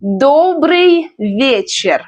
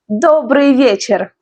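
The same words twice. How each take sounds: First: Slow, stretched Добрый вечер; pronunciation demo. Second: Said in the usual way. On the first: Shown as a demonstration. Teacher teaches Добрый вечер, slow careful model. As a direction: draw out each word of Добрый вечер for learners. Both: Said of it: "Let's learn pronunciation".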